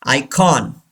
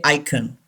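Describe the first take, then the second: First: Icon as "EYE-kawn"; icon, second syllable clearly "kawn"; full O vowel. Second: Icon as "EYE-kun"; icon, second vowel swallowed to "uh"; wrong, weak vowel. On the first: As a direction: say icon with a full open "kon" at the end. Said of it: "don't say icon". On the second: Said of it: "It's wrong". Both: Shown as a demonstration.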